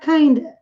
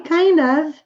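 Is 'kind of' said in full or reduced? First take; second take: reduced; full. First: Kind and of blend into one word, kinda. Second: Kind and of are two separate words. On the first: "eles costumam pronunciar kinda" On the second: "Esse kind of"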